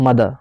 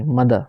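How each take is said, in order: First: मदर with a full, clear er; मदर ending on a full er sound; full er in mother. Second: मदर with a short, weak schwa at the end; मदर ending on a light uh; reduced er in mother. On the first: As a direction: say मदर with a strong final er. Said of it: "मदर नहीं". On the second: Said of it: "मदर, मदर नहीं". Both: Shown as a demonstration.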